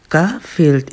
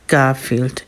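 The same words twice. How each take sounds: First: Said in the usual way. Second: Soft, low purring name; tender cat purr; purred softly. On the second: A narrator's reading. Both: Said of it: "er schnurrte sanft".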